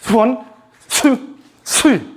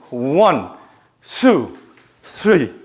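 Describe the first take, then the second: First: The numbers are counted quickly. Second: The numbers are counted at medium speed.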